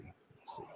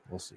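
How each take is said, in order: First: Whispered. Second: Said in the usual way. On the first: Real, not acted. Repeats it, fading to a whisper.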